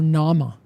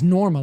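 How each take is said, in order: First: The R after the first vowel is dropped. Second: The R after the first vowel is pronounced.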